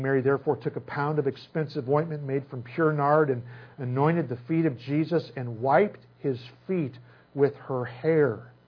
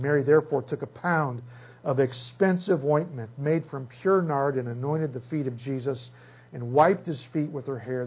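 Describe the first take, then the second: Both takes have the same delivery.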